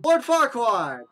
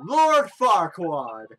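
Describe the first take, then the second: First: High, loud exclamation; excited recognition. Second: Slow, loud self-announcement; pompous mayor. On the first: Real, not acted. Player spotting a familiar character, loud excited cry. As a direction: blurt out the name on spotting him. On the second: Acted. Mayor introducing himself to an adventurer, slow and grandiose. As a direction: stretch the name out grandly. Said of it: "I'm the mayor of this town".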